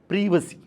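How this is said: It is said the British way. This is the British way of saying it. "in British English... is pronounced as privacy"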